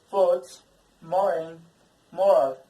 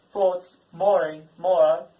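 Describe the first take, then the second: First: Loud, clear teacher demo of "thoughts", "moraine", "moral" with a short aw vowel. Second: "thoughts, moraine, moral" slowed and loud, the short aw vowel held clear; slow short vowel demo. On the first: Teacher drilling the class on the short aw vowel, loud and clear. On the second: Teacher repeating the short vowel for students, slow and loud. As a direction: spell out "thoughts, moraine" slowly so students copy them. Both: Shown as a demonstration. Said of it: "The first for the short sound".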